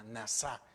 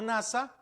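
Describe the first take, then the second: First: "nasá" said soft, with the stress on the final SÁ; stress on the last syllable. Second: "nasa" with stress on the first syllable, NA-sa. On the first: Preacher teaching the Hebrew word, stress on the last syllable. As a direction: land on the end of "nasá". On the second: Preacher contrasting the Hebrew word, stress on NA. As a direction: say "nasa" like the space agency. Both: Shown as a demonstration. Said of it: "pero con acento en la última".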